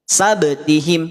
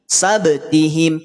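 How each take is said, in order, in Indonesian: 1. Bunyi b dilepas dengan pantulan yang terdengar. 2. Bunyi b dilepas dengan pantulan yang terdengar.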